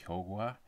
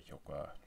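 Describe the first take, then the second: First: The first vowel is held long. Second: The first vowel is kept short. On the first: This is the standard pronunciation used by announcers. "technically it should be pronounced hyogwa" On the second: This is how people say it in everyday life. "They say hyogwa"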